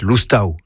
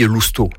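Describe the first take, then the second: First: "Loustau" ending in an a-u diphthong; "Loustau" with both final vowels sounded; Gascon pronunciation. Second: "Lousteau" ending in a plain French o; "Lousteau" with a single closing o vowel; French pronunciation. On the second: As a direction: say "Lousteau" the French way, final -eau as o. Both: Shown as a demonstration. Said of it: "lorsqu'il est bien prononcé".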